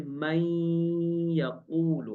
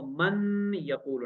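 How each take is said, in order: First: The n merges into the following y sound. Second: The n is clearly pronounced before the y. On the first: The speaker calls it right. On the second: The speaker calls it wrong.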